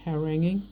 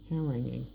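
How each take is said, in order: First: HARANGUING with a questioning rise; unsure of word. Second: Said in the usual way. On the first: Real, not acted. Speaker checking a word, unsure, HARANGUING rising at the end. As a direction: try out HARANGUING as if asking. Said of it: "is that word ha". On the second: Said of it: "I'm not sure what the word is".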